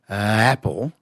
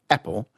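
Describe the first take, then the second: First: The vowel starts softly and swells gradually. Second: The vowel starts abruptly after a throat catch. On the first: "starting with a rather soft apple, like a sort of crescendo" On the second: "it starts very sharply"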